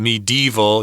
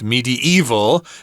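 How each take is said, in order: First: The word is said with three syllables. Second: The word is said with four syllables. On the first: "just three syllables" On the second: "by sneaking another syllable in there"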